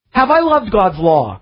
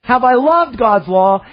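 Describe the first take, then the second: First: Gentle weight on I; stress on I. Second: LOVED picked out, higher pitch; stress on loved. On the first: Preacher asking himself the psalm's question, stress on I. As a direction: ask it leaning lightly on "I". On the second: Preacher repeating the psalm's question, stress on loved. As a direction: put the weight of the question on "loved". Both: Shown as a demonstration. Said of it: "isn't that the emphasis".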